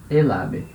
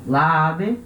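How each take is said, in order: First: "el ave" linked smoothly as e-la-be; euphonic article. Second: "La ave" with the two a vowels run together; clashing double vowel. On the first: Teacher giving students the correct article, euphonic linked sound. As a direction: join the l of el onto the a in "el ave". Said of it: "O certo é". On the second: Teacher contrasting the wrong article for students, clashing double vowel. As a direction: draw out the colliding a's in "La ave". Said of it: "La ave tá errado". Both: Shown as a demonstration.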